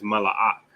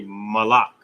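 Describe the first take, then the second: First: Malak unjoined, as ma-la-AK; full pronunciation. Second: Malak run together as ma-LAK. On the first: Teacher giving the actual word, Malak in full syllables. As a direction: give Malak three syllables with a separate ak. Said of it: "But the word is". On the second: Teacher showing the comfortable shortcut, Malak run together. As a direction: say Malak in two joined syllables. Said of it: "you can kinda run it together". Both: Shown as a demonstration.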